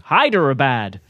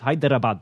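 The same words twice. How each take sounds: First: It has an American accent with a plain r. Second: It is said with a rolled r. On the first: "Sometimes I can do it American" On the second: "I like to roll my R's"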